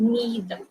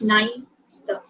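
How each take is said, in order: First: The first syllable sounds like 'nee'. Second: The first syllable sounds like 'nigh'. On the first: "N E E T H" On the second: "like N I G H"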